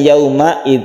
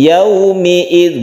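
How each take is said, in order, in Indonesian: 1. Harakat setelah huruf m adalah a. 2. Harakat setelah huruf m adalah i. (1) "bukan yauma'id" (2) "yaumi'id bukan yauma'id"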